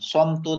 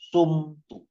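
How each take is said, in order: First: The first vowel sounds like 'o'. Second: The first vowel sounds like 'u'. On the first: The speaker calls it wrong. "Bukan somtu" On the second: The speaker calls it right. "tapi sumtu. Huruf pertama dibaca U"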